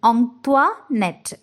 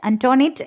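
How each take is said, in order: First: It begins with a nasal 'ong-kwa' sound. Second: It begins with an 'an-to' sound. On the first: The speaker calls it right. "അങ്ങനെയാണ് കറക്റ്റ് ആയിട്ട്" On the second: The speaker calls it wrong. "എന്നല്ല പറയേണ്ടത്"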